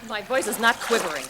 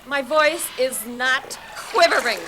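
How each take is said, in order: First: Firm, louder denial with a slight quiver; contained but emphatic protest. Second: Loud, slow, drawn-out protest; worked-up, quivering, emphatic denial; emotional denial. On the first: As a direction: insist on it, holding the voice in. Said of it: "Yes, it is". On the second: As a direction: stretch out each word in exasperation, loudly. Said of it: "Why are you getting so emotional?". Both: Acted.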